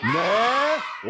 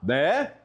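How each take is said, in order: First: It is said forcefully, with strong emphasis. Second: It is said as a plain, mild question.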